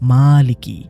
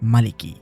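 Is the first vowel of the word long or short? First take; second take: long; short. First: The first vowel is drawn out long. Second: The first vowel is kept short. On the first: It means owner. "মিমের উচ্চারণটা একটু টেনে পড়তে হয়" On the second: It means king. "এখানে কোনো টান নেই"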